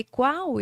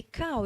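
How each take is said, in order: First: "Qual" with a clear kw glide, stressed; correct pronunciation. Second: Cal with a hard k, no w glide; child's mispronunciation. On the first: Shown as a demonstration. Therapist modelling the right word for the boy, "Qual" said clearly. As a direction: model "Qual" clearly with the kw sound, a bit louder. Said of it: "pra ele observar que ele tava falando errado". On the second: Retold or imitated. Boy mispronouncing the word to his therapist, saying "Cal". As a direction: say "Cal" the way the child got it wrong. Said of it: "ele tava falando errado".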